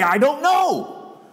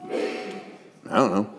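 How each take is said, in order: First: High, very slow mocking I don't know; mock incredulous. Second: Soft, very slow I don't know; quiet resigned. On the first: Society mocking someone who admits ignorance, high and drawn out. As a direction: stretch I don't know as if it's absurd. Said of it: "how can you have so much info". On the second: Acted. Mary answering the questioner, soft and very slow. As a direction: let I don't know trail out hushed and slow.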